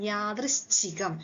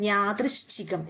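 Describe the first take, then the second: The two takes are said the same way.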